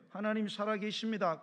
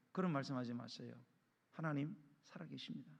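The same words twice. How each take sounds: First: Raised, emphatic assertion; firm declaration. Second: Soft, low mock reply to a scoffer; gentle rebuke. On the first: Acted. Believer correcting a man who curses God, firm and emphatic. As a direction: declare it firmly, without softening. Repeats the reply as firm warning. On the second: Believer answering someone who curses God, quiet and restrained. Models a mild reply to blasphemers.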